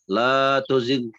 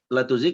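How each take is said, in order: First: The vowel in 'la' is held long. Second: The vowel in 'la' is cut short. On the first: It asks that hearts not be made to deviate. The speaker calls it right. "La-nya dibaca, dibaca panjang" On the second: It stresses that hearts surely be made to deviate. The speaker calls it wrong. "Kalau antum baca pendek"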